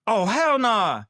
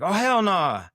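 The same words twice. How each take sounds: First: Put-on loud, high "hell nah" in a Black American accent, more emphatic; Black American accent, louder and higher; imitated Black accent. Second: Put-on loud, higher "hell nah" in a Black American accent; mock Black American dismissal, loud; imitated Black accent. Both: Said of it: "I'm doing black accent".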